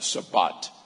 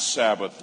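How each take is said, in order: First: The word ends with a 't' sound. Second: The word ends with a 'th' sound.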